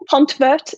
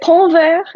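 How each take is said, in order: First: The name is said with an English accent. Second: The name is said with a French accent. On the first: "if you want to say it with an English accent" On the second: "if you want to say it with French accent"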